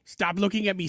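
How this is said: It is said imitating a movie character's delivery.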